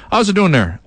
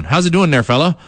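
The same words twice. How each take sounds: First: Put-on higher, punchy East Coast accent. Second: Put-on East Coast accent. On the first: Radio host showing fans his East Coast accent, higher and hammed-up. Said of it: "East Coast accent". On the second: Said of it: "I speak in a, uh, East Coast accent".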